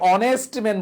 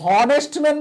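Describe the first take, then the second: First: Honest starts directly with a vowel sound. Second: Honest starts with an audible h sound. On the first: The speaker calls it right. "অনেস্ট বলি" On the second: The speaker calls it wrong. "He is a হনেস্ট man বলি"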